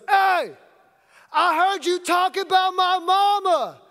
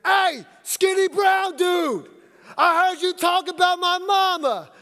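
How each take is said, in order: First: Mock yell, much higher and louder; yelled threat. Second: Slow mock yell, much higher and louder; yelled threat. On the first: Stranger yelling at the coach across the court, loud threat. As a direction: call out across the court like a tough guy. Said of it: "I hear this voice yell out". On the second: Stranger calling out the coach by his looks, loud threat. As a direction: bellow it across the court, slow and menacing. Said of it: "And then I hear".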